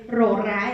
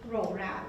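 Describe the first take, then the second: First: The R is trilled, Indonesian style. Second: The R is said softly, without a trill.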